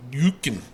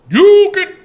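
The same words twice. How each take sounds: First: Said in the usual way. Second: High, loud, stretched YUKIN; exaggerated name call. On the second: Repeats the name, playing it up.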